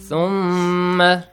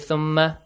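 First: The word is said steadily with a long m. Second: The word is said quickly with a short m. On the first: The speaker calls it right. "Steady, okay?" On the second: The speaker calls it wrong. "Do not say thumma. Fast, no"

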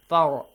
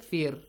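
First: The r is said heavy and full. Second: The r is said light and thin. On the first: The speaker calls it wrong. "If it was fatha, you would say فر" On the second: The speaker calls it right. "But here, فر"

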